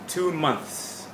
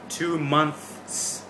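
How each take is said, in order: First: The two words are joined and said faster. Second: The two words are said separately, slowly. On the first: "Move it up a little bit in speed" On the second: "separate it"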